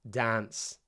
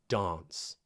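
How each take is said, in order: First: The vowel is a flat, front a sound. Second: The vowel is a long, broad ah sound.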